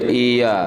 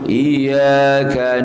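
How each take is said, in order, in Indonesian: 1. Bunyi y tunggal dan dibaca pendek. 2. Bunyi y digandakan dan dibaca panjang.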